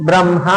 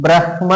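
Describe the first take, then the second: First: బ్రహ్మ with m before h, "bram-ha"; everyday pronunciation. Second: బ్రహ్మ with h before m, "brah-ma"; pronounced as written. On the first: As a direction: say బ్రహ్మ colloquially as bram-ha, h last. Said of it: "కానీ మనం ఏమంటాం". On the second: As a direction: say బ్రహ్మ as spelt, brah-ma, the h first. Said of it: "దీన్ని ఎట్లా పలకాలి". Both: Shown as a demonstration.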